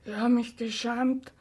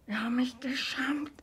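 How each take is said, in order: First: Said in the usual way. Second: Broken whisper; ashamed whisper. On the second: Acted. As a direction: breathe the confession out. Repeated confession whispered.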